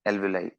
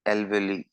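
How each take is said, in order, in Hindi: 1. यह शब्द 'eye' ध्वनि से खत्म होता है। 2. यह शब्द 'ee' ध्वनि से खत्म होता है।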